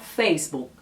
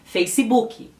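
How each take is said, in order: First: The final k is dropped, no vowel added. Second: An extra i vowel follows the final k. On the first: This is how Spanish speakers usually say it. "Elas não pronunciam a letra K" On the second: This is how Brazilians usually say it. "no Brasil a gente acrescenta um I ... É o que a gente costuma falar no Brasil"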